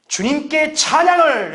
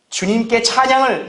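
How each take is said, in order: First: Imitated hearty cry, pitched high and drawn out; vigorous cry of praise. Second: Said in the usual way. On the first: Bedridden sister answering her visiting pastor, imitated vigorous cry. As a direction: call it out with vigour, stretching the last word. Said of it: "이렇게 힘차게 외쳤다 그래요". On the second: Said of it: "이렇게 얘기하죠".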